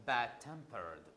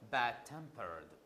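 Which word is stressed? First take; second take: bad; bad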